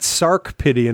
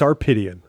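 First: A k sound comes before the p. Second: No k sound comes before the p. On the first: The speaker calls it wrong. "it's not Sarkpedian" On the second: The speaker calls it right. "it's Sarpedian"

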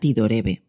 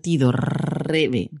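First: The r is a single tap. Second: The r is a strong trill. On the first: "se escribe con solo una, como si fuera tido rebe" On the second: "podría parecer tido rebe con 2 R's"

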